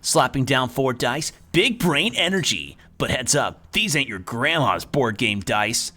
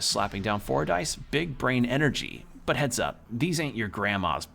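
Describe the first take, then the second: First: It is said in a put-on character voice. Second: It is said in the speaker's natural voice.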